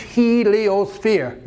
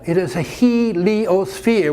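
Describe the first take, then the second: First: Heliosphere said very slowly, syllable by syllable, falling; slow condescending. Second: Heliosphere drawn out slowly, falling; lecturing stress. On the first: Husband drilling the word, very slow. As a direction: drag out Heliosphere like to a child. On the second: Husband correcting wife, drawn-out heliosphere. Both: Acted. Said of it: "your tone of voice".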